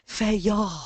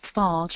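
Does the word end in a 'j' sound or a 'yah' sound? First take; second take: yah sound; j sound. First: The word ends in a 'yah' sound. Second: The word ends in a 'j' sound. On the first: The speaker calls it right. "it's feya" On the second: The speaker calls it wrong.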